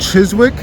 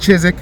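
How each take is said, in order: First: The W sound in the middle is pronounced. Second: The W sound in the middle is silent. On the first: The speaker calls it wrong. "I said it wrong" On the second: The speaker calls it right. "You don't say the W"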